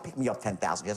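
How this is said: It is said in a soft, disarming tone.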